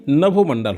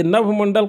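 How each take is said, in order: First: नभोमंडल with a clear "o" after nabh; correct form demonstrated. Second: नभमंडल with no vowel after "nabh"; uncorrected form. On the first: Teacher gives students the right word, correct form demonstrated. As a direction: say नभोमंडल as na-bho-man-dal. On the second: Teacher quotes the form to be corrected, uncorrected form. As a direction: say नभमंडल as nabh-man-dal. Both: Shown as a demonstration. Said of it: "सही नभोमंडल होता है".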